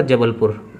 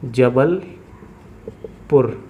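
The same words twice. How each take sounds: First: Said in the usual way. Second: Jabalpur split in two with a long pause before पुर; slow dictation. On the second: Real, not acted. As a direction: say Jabalpur very slowly, as if writing each part. Spelling out city while writing. (Jabalpur को रुक-रुककर, बहुत धीरे बोलना)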